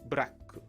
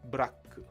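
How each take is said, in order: First: Vowels are inserted between and after the consonants. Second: The same.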